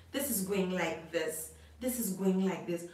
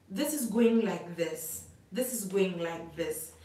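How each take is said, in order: Both takes have the same delivery.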